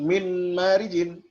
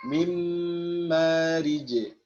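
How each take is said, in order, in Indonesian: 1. Bunyi n diucapkan sebelum m. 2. Bunyi n menyatu sepenuhnya menjadi m ganda. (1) "Jadi bukan min marijin" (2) "langsung di idghamkan secara kamil"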